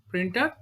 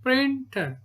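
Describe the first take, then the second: First: Said in the usual way. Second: "printer" stretched as prin-ter, higher pitched; split into syllables. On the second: Shown as a demonstration. Teacher showing two syllables, "printer" said beat by beat. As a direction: say "printer" in two separate beats. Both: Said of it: "two syllable word".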